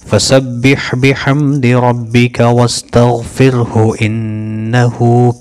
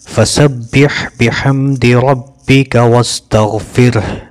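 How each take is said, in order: First: The recitation runs on into the next words. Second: The recitation stops at the end of the phrase. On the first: The reader joins the phrase to what follows. "मिला भी सकते हैं" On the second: The reader pauses at the permitted stopping mark. "यहाँ पे रुक सकते हैं"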